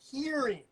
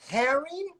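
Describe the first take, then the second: First: The first vowel sounds like the vowel in 'here'. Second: The first vowel sounds like the vowel in 'hair'. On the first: "Luke in New Zealand was pronouncing it hearing" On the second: "Is it herring or hearing?"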